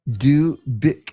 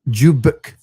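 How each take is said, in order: First: The name begins with a plain D sound. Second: The name begins with a J-like sound. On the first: The speaker calls it wrong. "I feel like I still didn't get it" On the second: The speaker calls it right. "The the the D almost sounds like a J"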